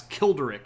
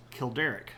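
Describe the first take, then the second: First: KIL-deric, first syllable hit louder; stress on the first syllable. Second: Said in the usual way. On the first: Shown as a demonstration. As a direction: punch the KIL in Kilderic. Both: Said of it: "a bit more emphatic on the first syll".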